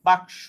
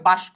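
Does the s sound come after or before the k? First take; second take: after; before. First: The s sound comes after the k. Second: The s sound comes before the k.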